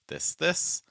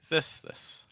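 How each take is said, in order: First: The second word has the higher pitch. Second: The first word has the higher pitch. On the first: "You can hear I stressed the second word" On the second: "I stress the first word"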